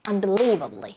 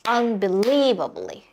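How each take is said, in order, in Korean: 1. 이 단어는 빠르게 말해요. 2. 이 단어는 천천히 말해요. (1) "더 빠르게" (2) "이렇게 천천히 처음에 하시고"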